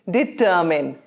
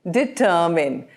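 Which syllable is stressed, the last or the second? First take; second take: second; second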